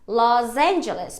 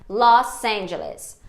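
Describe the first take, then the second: First: The s of Los is a voiced z sound. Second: The s of Los is a voiceless s sound. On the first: The speaker calls it wrong. "Esse sa tá seguido de uma vogal, então eu faria um Z" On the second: The speaker calls it right. "no inglês o som é sa mesmo"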